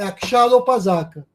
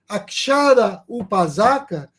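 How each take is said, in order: First: The a and u merge quickly into o. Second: The a and u are said separately, slowly.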